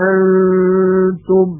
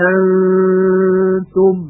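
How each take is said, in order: The two takes are said the same way.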